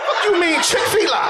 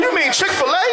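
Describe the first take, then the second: First: "Chick-fil-A" ending in "fee-LA"; high-pitched echo, "Chick-fil-A" as "chick-fee-la"; mocked mispronunciation. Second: "Chick-fil-A" ending in "fuh-LAY"; high, incredulous correction, "Chick-fil-A" ending on "lay"; standard brand pronunciation. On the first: Mocking cousin's error, "Chick-fil-A" pronounced "chick-fee-la". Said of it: "What kind of shit is that?". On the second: Acted. Correcting the cousin, "Chick-fil-A" pronounced "chick-fuh-lay". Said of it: "What you mean Chick-fil-A?".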